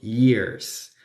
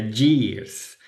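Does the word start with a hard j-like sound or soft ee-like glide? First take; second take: soft; hard. First: It starts with a soft, ee-like glide sound. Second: It starts with a hard, Spanish-style y sound. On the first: The speaker calls it right. "la Y se pronuncia como una I" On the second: The speaker calls it wrong. "como si tuviera una Y"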